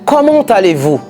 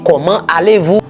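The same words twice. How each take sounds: First: Comment and allez are joined with a t sound. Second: Comment and allez are said without a linking t. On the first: The speaker calls it right. "ça c'est un cas unique côté ou capable de faire liaison" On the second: The speaker calls it wrong. "Ou pas qu'à dire"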